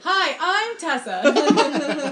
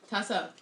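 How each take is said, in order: First: It is said brightly, with enthusiasm. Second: It is said flatly, without enthusiasm.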